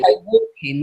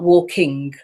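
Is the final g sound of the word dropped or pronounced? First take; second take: dropped; pronounced. First: The word ends in -in without the g sound. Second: The word ends in -ing with the g sound. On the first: The speaker calls it wrong. "I've been told recently that I dropped my G's. so I'll say walking" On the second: The speaker calls it right. "not walking"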